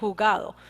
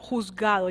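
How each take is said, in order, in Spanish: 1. La z en medio se omite. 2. La z en medio se pronuncia. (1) "la Z ahí, a saber qué pasó, se la comió" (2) "yo nunca digo juzgado"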